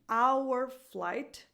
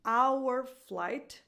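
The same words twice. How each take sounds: First: Our is said fully, with its whole vowel. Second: Our is said fully, with its whole vowel.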